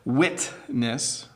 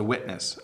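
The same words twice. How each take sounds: First: It is said slowly with a clear T sound. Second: It is said fast with a D-like T.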